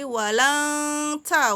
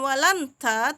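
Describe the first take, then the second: First: The n sound is hidden, blurred into nasality. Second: The n sound is pronounced clearly and distinctly. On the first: The speaker calls it right. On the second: The speaker calls it wrong. "bacanya bukan"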